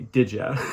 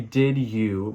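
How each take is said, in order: First: The second word is reduced to 'ya'. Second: The second word is said in full as 'you'. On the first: "we say did ya" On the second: "we don't want to say did you"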